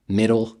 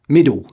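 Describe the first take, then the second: First: It ends in a rich, dark voiced L. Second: The final L turns into a W sound. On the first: "Americans enjoy pleasantly rich voiced L endings" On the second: "The Cockney fails to form the L sound, degenerating into a passive W"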